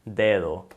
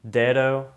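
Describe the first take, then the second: First: The D sounds are soft, Spanish-style. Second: The D sounds are hard, English-style. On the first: The speaker calls it right. "Now I'm gonna say it how it should be said" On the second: The speaker calls it wrong. "first I'm gonna say it with an American accent, with or with an American D sound"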